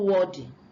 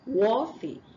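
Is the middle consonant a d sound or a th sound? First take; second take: d; th. First: The middle consonant is a d sound. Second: The middle consonant is a th sound. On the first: The speaker calls it wrong. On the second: The speaker calls it right.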